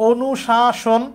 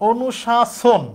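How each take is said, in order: Both takes have the same delivery.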